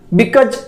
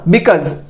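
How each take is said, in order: First: The final consonant is a 'j' as in jam. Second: The final consonant is a buzzing 'z' sound. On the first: The speaker calls it wrong. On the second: The speaker calls it right.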